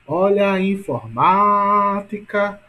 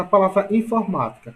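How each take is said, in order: First: Informática with MA stretched very long and loud; stress on MA. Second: Said in the usual way. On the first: Shown as a demonstration. Teacher showing students the strongest syllable, MA stretched out. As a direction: call out informática, dragging out the stressed MA. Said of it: "ou seja, ma é a mais forte". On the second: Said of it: "Qual é a sílaba mais forte?".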